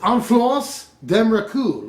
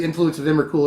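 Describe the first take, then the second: First: Slow, put-on French pronunciation; fake French accent. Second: Said in the usual way. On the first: YouTuber reading a French card name to viewers, fake French accent. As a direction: draw it out in a hammy French accent. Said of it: "sorry about my fake French accent". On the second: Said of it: "it's obviously Influence of Emrakul".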